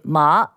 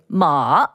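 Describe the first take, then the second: First: Said with the tone that means linen. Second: Said with the tone that means horse. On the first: It means linen. "and that means linen" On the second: It means horse. "and that means horse"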